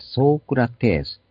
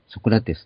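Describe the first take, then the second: First: The first vowel is drawn out long. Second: The first vowel is kept short. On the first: The speaker calls it right. "本来のギリシャ語の発音" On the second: The speaker calls it wrong. "ソクラテスってなくて"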